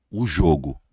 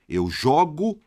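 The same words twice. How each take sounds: First: "jogo" dropped in pitch, with a closed first O. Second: "jogo" lifted, with an open first O. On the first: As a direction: round the O of the noun "jogo". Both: Shown as a demonstration. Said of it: "só que o som muda".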